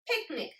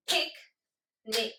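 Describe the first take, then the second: First: Said in the usual way. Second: "Picnic" as two separate beats, pic, pause, nic; split into syllables. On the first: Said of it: "Say picnic". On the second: Shown as a demonstration. Teacher clapping syllables for the class, "Picnic" broken into pic and nic. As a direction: clap out "Picnic" syllable by syllable with a clear gap. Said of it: "Let's clap the syllables".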